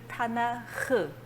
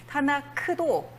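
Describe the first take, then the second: First: The word ends in a throaty h sound. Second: The word ends in a hard k sound. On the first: The speaker calls it right. "타나흐 이런 식으로 발음하시면 되겠습니다" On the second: The speaker calls it wrong. "타나크도 사실은"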